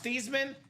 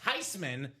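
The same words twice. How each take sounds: First: The name is said in a non-German way. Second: The name is said in a German way. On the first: The speaker calls it wrong. "It's not pronounced Theismann" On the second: The speaker calls it right. "It is in fact Theismann because it's a German name"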